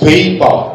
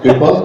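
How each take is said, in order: First: The first vowel is long, like in paper. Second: The first vowel is short, like in pepper. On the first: It is heard as a request for sheets of paper. The speaker calls it right. "Actually, it's paper" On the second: It is heard as a request for chili pepper. The speaker calls it wrong. "why is he asking for paper?"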